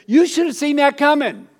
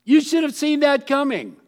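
First: Higher, louder told-you-so to a friend. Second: Told-you-so. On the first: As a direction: wag a finger at a friend who ignored the signs. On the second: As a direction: repeat it, knowing and exasperated. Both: Retold or imitated. Telling a friend off.

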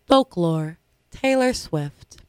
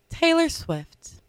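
First: Slow, showy award announcement; award announcer voice. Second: Quiet, slow documentary narration; narrator voice. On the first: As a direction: call out the nominee like an awards host. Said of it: "Should I use my award announcing voice again?". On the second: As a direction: whisper it like a nature documentary narrator. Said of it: "with my narrator voice". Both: Acted.

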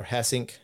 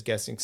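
First: "Hessink" said with an H at the start; corrected name. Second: "Gessink" said with a hard G at the start; mispronounced name. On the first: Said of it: "sorry for the pronunciation police". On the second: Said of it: "or Hessink, sorry for the pronunciation police". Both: Shown as a demonstration.

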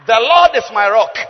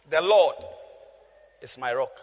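First: Loud, emphatic proclamation; declaimed verse. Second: Said in the usual way. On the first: Real, not acted. Preacher declaring the psalm to the congregation, loud declamation. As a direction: proclaim it forcefully to the room.

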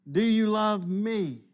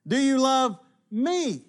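First: "you" carries the weight, "me" falls away; slow question with the push on "you"; stress on YOU. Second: "me" lifted high and drawn out, slowly; stress on ME. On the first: Jesus pressing Peter, with stress on "you". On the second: Jesus asking Peter, with slow stress on "me". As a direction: lean hard on "me" in "Do you love me?". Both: Shown as a demonstration. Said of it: "notice within this passage the emphasis".

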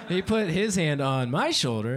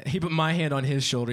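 First: Slower, with HIS and MY picked out; drawn-out, deliberate "his hand on my shoulder"; corrective stress. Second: Said in the usual way. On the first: Real, not acted.

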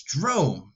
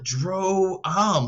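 First: "Drome" said as one smooth syllable, rhymes with home. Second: "Dro-am" split into two syllables, Dro then am; two-part "Dro-am". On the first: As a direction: say "Drome" in a single beat. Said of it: "What's so confusing about it?". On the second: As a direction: break "Dro-am" in two like two words. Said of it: "like it's, like, two different words". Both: Shown as a demonstration.

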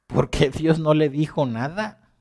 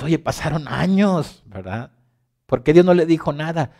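First: Slow, higher wondering question; puzzled question. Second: Louder, higher protest; exasperated question. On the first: Believer wonders aloud why God kept silent, slow and puzzled. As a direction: ask it slowly, puzzling over it. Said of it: "te pones a pensar y dices". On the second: Believer protests to God after the years, louder and higher. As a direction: demand an answer, raising the voice. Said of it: "Y tú dices". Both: Pretend.

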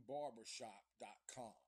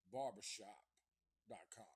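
No difference in how they are said.

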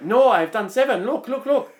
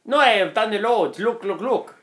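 First: Vietnamese accent impression. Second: Higher mock Italian accent; a botched accent that slides into Italian; Italian accent by accident. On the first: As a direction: imitate the truck driver in a mock Vietnamese accent. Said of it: "I'm trying to do the accent". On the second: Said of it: "That was Italian".

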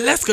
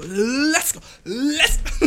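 First: Said in the usual way. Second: Soaring higher with a laugh; cracking up with hyper glee; giddy hype. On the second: Real, not acted. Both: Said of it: "Ich drück auf Let's go".

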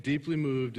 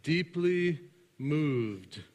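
First: Said in the usual way. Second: "deeply moved" drawn out very slowly, each word weighed; read slowly. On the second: Shown as a demonstration. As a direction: stretch out "deeply moved", slow and deliberate. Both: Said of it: "is too weak of a translation".

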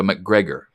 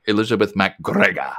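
First: Said in the usual way. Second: MacGregor with a rolled Scottish r; playful Scottish burr on "MacGregor"; Scottish accent. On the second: Pretend. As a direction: roll the r in MacGregor like a Scot. Scottish ancestor's name said in accent.

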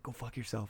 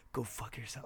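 First: Retold whisper, much softer; so quiet. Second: Quiet retold whisper, much softer. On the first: Replaying the quiet whispered reply to a scam caller. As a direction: barely breathe it out so the office can't hear. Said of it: "Like, so quiet". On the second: At a desk, hanging up on a scam caller in a whisper. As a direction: hiss it under your breath at your desk. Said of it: "whispered at my desk".

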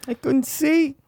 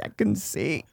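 First: High, strained Wahlberg cry; hammed-up Wahlberg, pitched way up; mock anguished Wahlberg line; Wahlberg acting. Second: Hushed dramatic Wahlberg line; mock earnest Wahlberg, softer; lightly voiced Wahlberg drama; Wahlberg acting. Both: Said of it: "acting chops for Marky Wahlberg".

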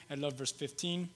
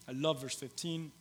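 The two takes are said the same way.

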